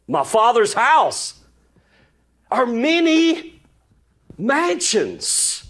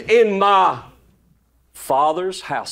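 First: "My Father's house" drawn out slowly, then "are many" lifted much higher and slow, "mansions" falling; slow stressed recitation. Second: Said in the usual way. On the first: Shown as a demonstration. Preacher savouring the verse for his congregation, slow and lifted. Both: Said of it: "I love how he said it".

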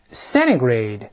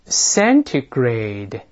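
First: "centigrade" said quickly, T swallowed, sounding "cenigrade"; faster reading. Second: "centigrade" said very slowly, every sound clear, T fully pronounced; slow model reading. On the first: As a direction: run "centigrade" together, dropping the T. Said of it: "我们再快一点读". (快读"centigrade"，中间的T吞掉) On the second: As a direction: stretch out "centigrade" syllable by syllable. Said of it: "我们大声把第一个词先读一遍". (很慢地示范"centigrade"，T清楚发出) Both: Shown as a demonstration.

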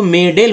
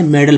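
First: मेडल wrongly said "may-dell", second vowel as E; A read as ay. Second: मेडल said "MED-al", A as a short uh; short open vowel. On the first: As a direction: read the A in मेडल as a full E before L. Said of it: "अगर ए पढ़ते". (मेडल के आखिर में अ की जगह ए, "मेडेल") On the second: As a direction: say मेडल with a weak uh before the L. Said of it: "अ पढ़ रहे हैं". (मेडल में ए का उच्चारण अ) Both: Shown as a demonstration.

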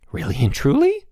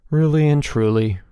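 First: High, rising hopeful question. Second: High start, firm falling confirmation; assuring reply. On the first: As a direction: ask it full of hope. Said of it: "Elmer asked hopefully". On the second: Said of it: "replied Bruno". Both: A narrator's reading.

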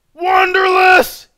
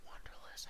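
First: Long, high screamed greeting; huge stretched-out holler; screaming a name. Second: Whispered name, very soft; breathy hushed greeting; ASMR whisper. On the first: Real, not acted. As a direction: scream the viewer's name in delight. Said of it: "trying not to scream out your name". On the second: Pretend. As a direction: greet the viewer in a tiny whisper. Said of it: "I'm A S M R right now".

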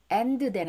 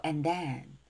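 First: "and then" with an added vowel after the d; mistaken pronunciation. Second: "and then" run together with no vowel after the d; linked pronunciation. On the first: Teacher showing students what to avoid, mistaken pronunciation. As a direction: say "and then" as separate Korean-style syllables, en-deu-den. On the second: Teacher modelling it for students, linked pronunciation. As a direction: link "and then" smoothly, swallowing the d. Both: Shown as a demonstration. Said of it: "and then 하지 말고 and then".

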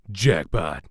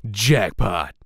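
First: "Jackpot." in a loose American accent, a bit louder; bad American accent. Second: "Jackpot!" in a crisp British accent, loud and punchy. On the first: Voice actor repeats Dante's line in a bad American accent. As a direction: say "Jackpot." like a cocky American action hero. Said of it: "This is a very bad American accent". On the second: Voice actor does Dante's line in a British accent. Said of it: "here is the regular British accent". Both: Shown as a demonstration.

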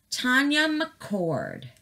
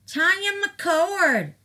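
First: Said in the usual way. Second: Higher, drawn-out sing-song call of the name; excited call-out. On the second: Real, not acted. Reading a subscriber's name to her viewers, excited call-out.

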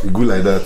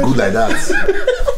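First: Said in the usual way. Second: High, slow, stretched through a laugh; laughing sing-song. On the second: Real, not acted. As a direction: sing it out while laughing at him. Mocking praise while laughing.

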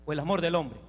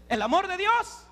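First: Low, dropped-away question; dismissive alternative. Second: High, rising question; rousing prompt. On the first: Preacher offers the young women man's love, dismissive alternative. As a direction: let the second option sink down low. Deflated rival option to God's love. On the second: Preacher offers the young women God's love, rousing prompt. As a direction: lift it into a ringing question. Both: Acted.

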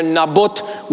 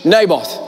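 First: Naboth as NAH-boot, rising; Hebrew pronunciation. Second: Naboth as NAY-both, falling; English pronunciation. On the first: Preacher shows the Hebrew name Naboth, NAH-boot. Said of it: "we say in". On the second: Preacher gives the English name Naboth, NAY-both. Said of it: "in English". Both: Shown as a demonstration.

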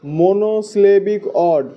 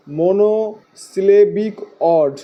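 First: Said in the usual way. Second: "monosyllabic অড" slowly, in separate chunks; teacher's slow repeat of "monosyllabic অড", part by part; slow, broken up. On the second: Shown as a demonstration. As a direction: break "monosyllabic অড" into mo-no, si-le-bik, od. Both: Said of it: "কি বলা হয়?".

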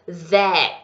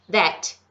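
First: That with the T dying on the palate; unreleased final T. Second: That with the final T let go, Brazilian style; released final T. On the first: Teacher shows students that, last sound dying in the mouth. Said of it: "O último som morre no céu da boca". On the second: Teacher shows students our Brazilian T, that fully released. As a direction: release the T of THAT audibly. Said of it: "Ele solta". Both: Shown as a demonstration.

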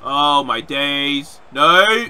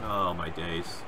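First: Drawn-out loud cry of dismay. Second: Low, soft groan of dismay; muted dismay. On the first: Gamer seeing his move go wrong, long loud wail. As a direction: stretch it out, then burst into a shout. Dismay at game, louder take. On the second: Gamer watching a move go wrong, low quiet dismay. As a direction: say it low and softly to yourself. Dismay at game, first take. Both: Real, not acted.

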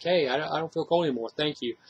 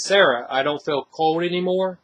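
First: Soft and thankful, much quieter; a hushed, grateful thank-you; grateful, relieved. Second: Said in the usual way. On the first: Retold or imitated. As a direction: say it like a gift, gently. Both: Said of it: "it's like it's a good thing".

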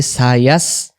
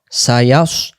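First: "ইয়াস" with open, unrounded a, like "yass"; thin wrong vowel. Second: "ইয়াস" with heavy rounded vowel, like "yaws"; rounded mouth. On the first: Teacher showing students' mistake, "ইয়াস" thin and unrounded. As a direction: keep "ইয়াস" light, lips unrounded. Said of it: "যদি এই জায়গায় আমরা বলি". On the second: Teacher showing correct recitation, "ইয়াস" rounded and heavy. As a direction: round the lips on "ইয়াস" and thicken the s. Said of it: "মুখটা গোল হবে". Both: Shown as a demonstration.

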